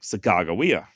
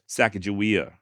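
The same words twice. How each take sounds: First: The middle consonant is a hard g sound. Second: The middle consonant is a soft j sound. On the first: The name means bird woman. "the Hidatsa do not have any J sounds in their language. So it came out sounding like" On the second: The name means boat launcher. "her name is indeed pronounced Sacagawea, just like I'm saying"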